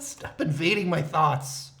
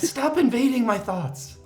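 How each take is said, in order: First: It is said in a plain, normal voice. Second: It is said in a put-on character voice. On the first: The speaker calls it wrong. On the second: The speaker calls it right.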